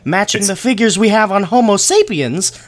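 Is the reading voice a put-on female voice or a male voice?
female voice. It is read in a put-on female voice. The speaker imagined the quoted person as a woman. The speaker calls it wrong. "are you doing a woman voice?"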